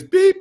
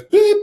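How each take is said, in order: First: High mock beep. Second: Mock beep. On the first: Telling the interviewer how the TSA wand went off, squeaky beep. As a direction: imitate a security wand's beep, pitched way up. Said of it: "It goes beep". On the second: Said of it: "and it goes beep".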